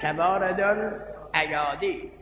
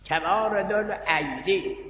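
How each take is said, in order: First: The second word has four syllables, al-a-ya-di. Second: The second word has three syllables, al-ay-di. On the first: The speaker calls it wrong. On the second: The speaker calls it right.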